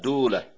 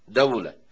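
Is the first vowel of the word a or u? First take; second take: u; a. First: The first vowel is u. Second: The first vowel is a. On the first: "بضم الدال" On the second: "بفتحها"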